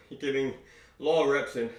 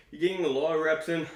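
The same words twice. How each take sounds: First: Said in the usual way. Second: Out of breath. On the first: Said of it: "catching my breath for a moment". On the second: Real, not acted. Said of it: "Sorry, I'm just catching my breath".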